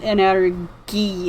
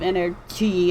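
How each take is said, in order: First: The word is said with a Japanese pronunciation. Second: The word is said with an English pronunciation. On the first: "Japan calls it energy" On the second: "instead of energy"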